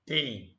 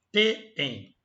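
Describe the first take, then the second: First: "tem" said alone, lower, as a phonetic sample; phonetic demo. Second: "Tem" split in two, te-em, with a gap; two-syllable demo. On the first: Teacher showing the phonetic representation, careful demo. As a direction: sound out "tem" in isolation. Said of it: "é como se fosse assim a palavra". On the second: Teacher showing why it counts as paroxytone, split-syllable demo. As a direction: break "Tem" apart as if it had two syllables. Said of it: "Como se fosse". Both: Shown as a demonstration.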